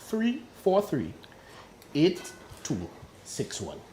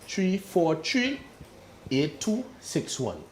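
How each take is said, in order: First: The number is said in standard English. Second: The number is said in a local Tobago accent.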